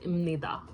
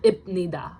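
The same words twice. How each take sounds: First: Imnida with an M before the N; nasalized pronunciation. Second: Ibnida with a hard B before the N; ibnida, stop the B before nida; as-written pronunciation. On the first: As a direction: say imnida, b turned to m. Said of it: "it sounds like". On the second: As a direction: say ibnida exactly as spelled. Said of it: "It's not ibnida". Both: Shown as a demonstration.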